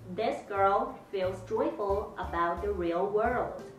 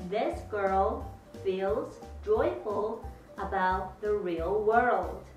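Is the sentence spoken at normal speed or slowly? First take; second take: normal; slowly. First: The sentence is spoken at normal speed. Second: The sentence is spoken slowly.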